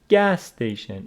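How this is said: The stress is on the first word. The speaker calls it right. "Stress of compound nouns falls on the first word"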